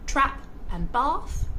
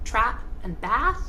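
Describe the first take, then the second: First: It is spoken in an Australian accent. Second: It is spoken in an American accent. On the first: "So Australians will say" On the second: "Americans will say"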